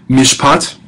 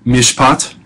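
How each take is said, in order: Both takes have the same delivery.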